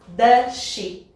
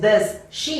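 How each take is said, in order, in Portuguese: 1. As duas palavras são ditas juntas, num som só. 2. As duas palavras são ditas separadas por uma pausa. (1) "Eu junto como se fosse um S só" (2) "Ao invés de does she, eu não faço essa pausa"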